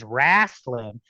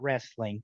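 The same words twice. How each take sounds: First: It has a Southern US pronunciation. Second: It has a standard, non-Southern pronunciation. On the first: The speaker calls it right. "We are in the South. It is wrestling" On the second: The speaker calls it wrong. "It is not wrestling"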